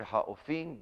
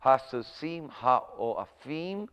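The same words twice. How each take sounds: First: Ha'ofim run together as ha-o-fim; ha'ofim, vowels merged; usual pronunciation. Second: Hasusim ha'oafim said slowly, syllable by syllable; slow careful reading of ha'oafim; as it sounds. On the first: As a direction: say ha'ofim the common way. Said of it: "I've always heard it ha'ofim". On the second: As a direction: spell out ha'oafim as it sounds, o and a apart. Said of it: "we could go as it sounds". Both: Shown as a demonstration.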